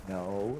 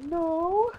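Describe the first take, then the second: First: Said in the usual way. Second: Very high, squeaky "No"; voice shooting up high. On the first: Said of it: "But my voice went up high". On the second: Retold or imitated. Boy denies wetting his pants, voice shooting up high. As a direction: jump way up in pitch on the denial. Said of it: "My voice went up high".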